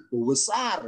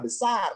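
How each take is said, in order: First: "bu besar" with a drawn-out emphatic "bu". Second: Said in the usual way. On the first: Shown as a demonstration. Teacher showing students the emphatic "bu besar". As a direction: stretch "bu" before "besar" to stress the size. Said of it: "Supaya ada penekanan, pakai bu". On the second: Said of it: "bilang besar kan biasa".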